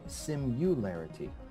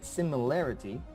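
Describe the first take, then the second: First: The second syllable is said with a 'u' vowel. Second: The second syllable is said with an 'i' vowel. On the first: The speaker calls it wrong. "I always say simularity" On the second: The speaker calls it right. "every time I say similarity"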